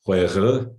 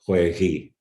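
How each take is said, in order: First: "huejı" ending in a schwa-like "uh"; back-vowel ending. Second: "hueji" ending in a clear "ee"; front-vowel ending. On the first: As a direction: say "huejı" with a dull, unrounded "uh" at the end. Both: Shown as a demonstration. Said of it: "you'll get either a or e".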